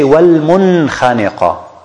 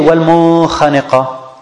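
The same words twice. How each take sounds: First: The n sound is pronounced clearly before kh. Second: The n sound is hidden before kh. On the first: The speaker calls it right. "we say" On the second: The speaker calls it wrong. "So we don't say"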